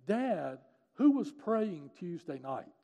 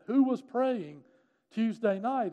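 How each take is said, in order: First: Slow, slightly raised retold plea; earnest daughter's question, lightly acted; insistent question. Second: High, loud insistent question; retold daughter's urgent demand; emphatic demand. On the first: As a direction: ask Dad with weighted, deliberate words. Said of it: "and she was crying". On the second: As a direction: repeat it forcefully, pressing for an answer. Daughter repeats her question insistently.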